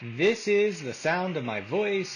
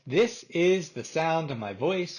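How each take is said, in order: First: The voice is heard over running background noise. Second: The voice is heard without background noise.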